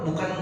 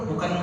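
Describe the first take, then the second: Both takes have the same delivery.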